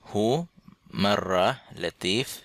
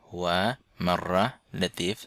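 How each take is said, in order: First: The first word is shortened to one syllable. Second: The first word is said in full, two syllables. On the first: "অনেকে হু বলে থাকে, শুধু হু।" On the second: "এই হুয়াকে"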